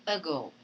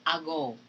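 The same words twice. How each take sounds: First: "ago" starting with a short uh; weak schwa in "ago". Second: "ago" starting with a full ah; the wrong way, stressed a. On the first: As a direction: correct schwa. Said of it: "So you say ago". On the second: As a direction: mistaken full vowel. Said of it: "You do not say ago". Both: Shown as a demonstration.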